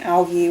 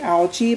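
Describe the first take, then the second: First: The g is said as a hard g. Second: The g is said as a soft g. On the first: This is how Australians say it. "they pronounce it the G like a G" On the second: This is how Americans say it. "in America we would say"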